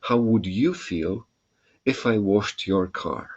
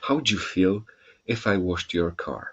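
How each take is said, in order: First: 'Would you' is said as two full words. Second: 'Would you' blends into a short 'j' sound.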